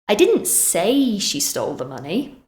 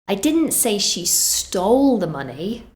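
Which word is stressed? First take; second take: say; stole. First: The word 'say' carries the main stress. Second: The word 'stole' carries the main stress. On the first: It was communicated some other way, not spoken. "Maybe I wrote it instead" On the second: She got it some other way. "so that suggests she did something else"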